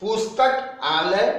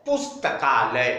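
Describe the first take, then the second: First: पुस्तक आलय, said slowly as two parts; separated parts. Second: पुस्तकालय said as one merged word; joined word. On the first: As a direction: pause between पुस्तक and आलय. (पुस्तक आलय अलग-अलग बोलें) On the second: (पुस्तकालय जोड़कर एक शब्द में) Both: Shown as a demonstration. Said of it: "दोनों के उच्चारण में अंतर".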